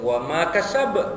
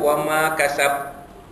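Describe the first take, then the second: First: The final B ends with an echoing bounce. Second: The final B ends without any echoing bounce. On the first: The speaker calls it right. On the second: The speaker calls it wrong. "Bunyi ba tu ada, tapi tak dilantunkan"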